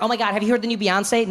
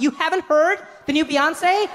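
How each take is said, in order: First: Higher, gushing fan's question; casual excited question. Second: High, slow incredulous question; mock disbelief. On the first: Acted. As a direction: ask eagerly, sharing hot news. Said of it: "they're like". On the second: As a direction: draw it out as if utterly shocked. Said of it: "they can't believe you haven't had".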